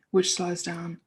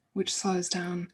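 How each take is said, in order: Both takes have the same delivery.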